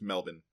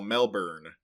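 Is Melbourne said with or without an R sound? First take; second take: without R; with R. First: It is said without an R sound. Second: It is said with an audible R sound. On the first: "you just don't pronounce that R. It's Melbourne" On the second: "which we Americans would call Melbourne"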